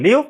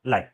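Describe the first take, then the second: First: लीव with an "ee/ih" vowel; लीव, as in "I live in India"; short live pronunciation. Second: लाइव with an "eye" vowel; लाइव, as in a live broadcast; long-i live pronunciation. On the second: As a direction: say लाइव to rhyme with "five". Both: Shown as a demonstration. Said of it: "हम pronunciation अलग कर रहे हैं".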